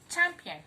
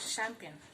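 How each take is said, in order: First: The word begins with a ch sound. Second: The word begins with a sh sound. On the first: The speaker calls it right. "Letter C H here gives the sound ch" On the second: The speaker calls it wrong.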